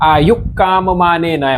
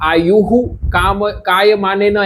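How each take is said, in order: First: The h-sound is cut short into the k. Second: The h-sound after ayu is fully pronounced. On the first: The speaker calls it right. "અડધો વિસર્ગ જેવો જ થશે" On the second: The speaker calls it wrong. "એમ નહીં થાય"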